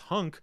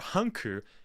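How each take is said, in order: First: The name ends on a bare consonant. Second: The name ends with an added vowel sound. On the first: This is the name's real form. "but in reality it is Hunk" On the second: This is how Japanese speakers say the name. "as how the Japanese pronounce it"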